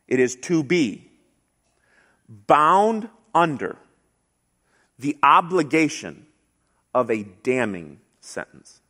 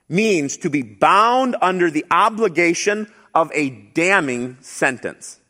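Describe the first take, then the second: First: It is said slowly. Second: It is said at normal speed.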